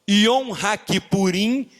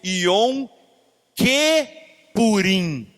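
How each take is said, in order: First: The second word begins with the sounds 'haki'. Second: The second word begins with the sounds 'ke'. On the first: A day of atonements. "em vez de Yom HaKippurim" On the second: A day like Purim. "se eu mudar a vocalização"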